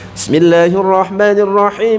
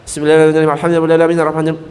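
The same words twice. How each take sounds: First: It is quick but every sound is distinct. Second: The sounds are slurred and swallowed together. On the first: The recitation is fast yet still valid. The speaker calls it right. "Boleh cepat, ... tapi jelas tetap hurufnya" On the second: The letters lose their due pronunciation. The speaker calls it wrong. "Sampai nggak jelas, ... nggak jelas itu"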